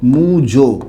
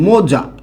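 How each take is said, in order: First: The vowels are u then o. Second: The vowels are o then a. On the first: "অনেক সময় উচ্চারণ করি মুজো" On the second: "এই যে মোজা শব্দটা যে আছে না"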